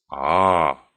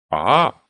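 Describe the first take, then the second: First: Lower, drawn-out emphatic ah. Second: Said in the usual way. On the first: A narrator's reading. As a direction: lean on the second ah to make a point. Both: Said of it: "Then he repeated for emphasis".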